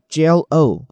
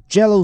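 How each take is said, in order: First: Jell-O said slowly as two clear parts, Jell then O; split into syllables. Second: Said in the usual way. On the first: Shown as a demonstration. Teacher to students, Jell-O split slowly into syllables. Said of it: "或者分开念啊". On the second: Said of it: "这个Jello或者分开念啊".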